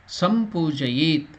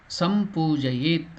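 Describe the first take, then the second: No difference in how they are said.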